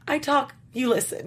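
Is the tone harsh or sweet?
sweet. It is said in a sweet, cute tone.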